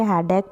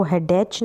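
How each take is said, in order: First: हेडेक ending in a hard "k"; correct pronunciation. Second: हेडेच ending in a "ch" sound; wrong pronunciation. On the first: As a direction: read हेडेक with a final k sound. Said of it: "हेडेक पढ़ेंगे". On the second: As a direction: misread हेडेच with a final ch as in "church". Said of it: "इसको हेडेच नहीं पढ़ेंगे". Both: Shown as a demonstration.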